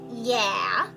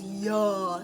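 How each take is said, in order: First: It is said without an open, dropped throat. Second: It is said with a dropped jaw and open throat.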